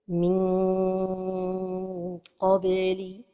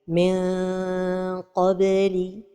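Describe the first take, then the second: First: The tongue touches the palate during the nasal. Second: The tongue is held far from the palate. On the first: "La première erreur est de coller la langue" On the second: "d'éloigner trop la langue du palais"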